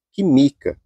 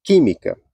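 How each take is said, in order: First: Química misstressed as quiMIca, second syllable long and strong; stress on the middle syllable. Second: Química stressed QUÍmica, strong first syllable. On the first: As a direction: read química as if unaccented, beat on MI. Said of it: "a pessoa lendo sem acento ficaria". (química com a tônica errada no MI: quiMIca) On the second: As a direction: hit the QUÍ of química, let mica fall away. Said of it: "Então, fica muito estranho". (química com a tônica no QUÍ, a antepenúltima sílaba) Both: Shown as a demonstration.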